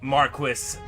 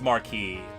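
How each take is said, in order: First: The final S is pronounced. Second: The final S is silent. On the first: The speaker calls it wrong. "they say Marquis, but that doesn't mean they're right" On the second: The speaker calls it right. "it is Marquis ... you don't say the S"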